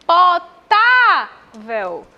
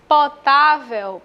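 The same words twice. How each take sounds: First: Slow, loud "Potável" with a long-held "tá"; stressed syllable called out. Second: Said in the usual way. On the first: Shown as a demonstration. Teacher calls "Potável" to show penultimate stress, long "tá". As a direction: call "Potável" out, stretching the middle syllable. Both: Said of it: "penúltima sílaba mais forte".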